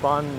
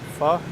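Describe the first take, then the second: First: The vowel is short, like 'fuh'. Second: The vowel is long, like 'foe'. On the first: The speaker calls it right. "says it's fun" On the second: The speaker calls it wrong. "not pho"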